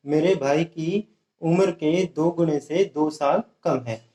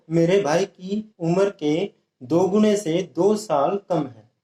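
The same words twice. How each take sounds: The two takes are said the same way.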